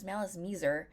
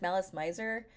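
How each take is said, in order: First: The second word is said like 'meezer'. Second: The second word is said like 'miser'. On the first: The speaker calls it right. "the way you pronounce it is" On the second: The speaker calls it wrong. "I always thought it was"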